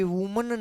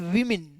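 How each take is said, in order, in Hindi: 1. पहला अक्षर 'woo' जैसा सुनाई देता है। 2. पहला अक्षर 'wih' जैसा सुनाई देता है। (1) "ये वुमन नहीं बोला जाएगा" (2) "इसको हम बोलेंगे विमिन"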